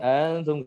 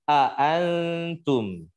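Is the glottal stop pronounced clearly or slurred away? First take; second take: slurred; clear. First: The glottal stop is slurred and unclear. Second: The glottal stop is pronounced clearly and firmly. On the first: The speaker calls it wrong. "orang mabuk itu misalkan membaca a antum menjadi antum antum gak jelas" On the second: The speaker calls it right. "yang membaca dengan tahqiq, ya jelaskan sesuai dengan porsinya"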